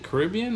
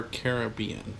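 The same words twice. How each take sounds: First: Caribbean with stress on RIB; second-syllable stress. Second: Caribbean as KARR-uh-BEE-un; first-and-third-syllable stress. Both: Shown as a demonstration. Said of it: "is it Caribbean or Caribbean".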